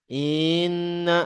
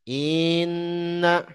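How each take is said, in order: First: The opening vowel is dragged out long. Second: The opening vowel is dragged out long.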